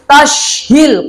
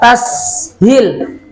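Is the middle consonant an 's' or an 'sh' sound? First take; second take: sh; s. First: The middle consonant is an 'sh' sound. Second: The middle consonant is a plain 's' sound. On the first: The speaker calls it wrong. "jangan mengatakan tashhil karena itu sin biasa, bukan shin ya" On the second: The speaker calls it right. "Sin biasa"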